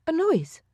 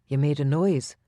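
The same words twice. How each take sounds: First: "noise" asked much higher, rising in disbelief; 惊讶地反问"noise"，音调很高; surprised echo. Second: Said in the usual way. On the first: A narrator's reading. Juliana echoes in surprise.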